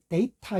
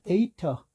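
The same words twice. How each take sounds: First: 데이터 said the Korean way, full vowels; 데이터 in plain Korean pronunciation; Korean-style data. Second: 데이터 with the last vowel reduced to schwa; 데이터 ending in a weak uh; English data. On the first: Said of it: "데이터 이렇게 하잖아요". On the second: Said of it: "데이터 이렇게 해야 맞겠고요". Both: Shown as a demonstration.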